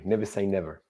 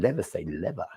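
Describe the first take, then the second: First: It is said in the speaker's own plain accent. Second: It is said like the Italian woman, in an Italian accent.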